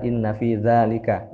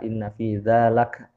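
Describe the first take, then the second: First: The last word ends in a full 'lika'. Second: The last word ends in a short 'lak'. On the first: The speaker calls it right. "Yang benar inna fi dzalika, bukan laka" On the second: The speaker calls it wrong. "Ini salah harokat tadi bacanya"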